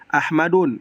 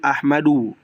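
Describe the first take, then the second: First: The word ends with an n sound. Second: The word ends with a plain vowel. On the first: The speaker calls it wrong. "itu salah" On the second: The speaker calls it right. "yang betul"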